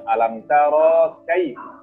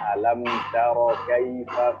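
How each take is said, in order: First: The vowel in 'tara' is drawn out long. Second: The vowel in 'tara' is kept short. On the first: The speaker calls it wrong. "bukan alam taro kaif" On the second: The speaker calls it right. "Taro harus dibaca pendek"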